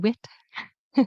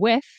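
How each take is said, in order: First: The word ends with a t sound. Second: The word ends with a th sound. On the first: The speaker calls it wrong. "if you're a Quebecer" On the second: The speaker calls it right. "instead of saying with"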